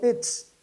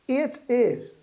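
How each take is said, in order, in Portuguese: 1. As palavras são contraídas em uma única sílaba. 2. As palavras são ditas por completo, sem contração.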